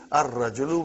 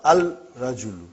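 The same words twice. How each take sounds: First: Ar-rajulu with the l dropped and r doubled; assimilated sun letter; correct ar-rajulu. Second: Al-rajulu with the l sounded before r; wrong al-rajulu. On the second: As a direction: say al-rajulu, the wrong way, l clearly pronounced. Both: Shown as a demonstration. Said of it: "It will be wrong to say al-rajulu".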